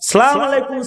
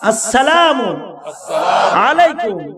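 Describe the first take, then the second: First: The greeting starts without the 'as' sound. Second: The greeting starts with a clear 'as' sound. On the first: The speaker calls it wrong. "এগুলো বলবেন না" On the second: The speaker calls it right. "এইভাবে সালাম দিবেন"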